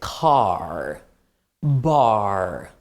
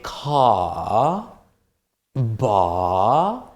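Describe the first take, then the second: First: It is said in an American accent, R pronounced. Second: It is said in a British accent, R silent.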